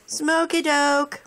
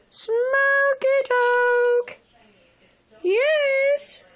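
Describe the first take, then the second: First: Said in the usual way. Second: High, very slow crooning of the name; sung, stretch the name out high and sweet; long high singsong croon. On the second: Real, not acted.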